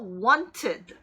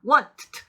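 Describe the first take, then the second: First: The ending is an extra syllable, id. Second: The ending is a bare t sound. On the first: The speaker calls it right. "ed가 ed로 발음됩니다. 그래서 wanted, wanted 이렇게 발음하셔야 돼요" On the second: The speaker calls it wrong. "뒤에 더해지는 ed도 t가 돼서 want, 트, 이래야 되잖아요. 근데 이런 소리 굉장히 좋아하지 않는다고요"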